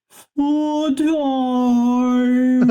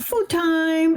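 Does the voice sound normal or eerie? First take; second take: eerie; normal. First: It is said in a haunted, eerie voice. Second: It is said in an ordinary voice.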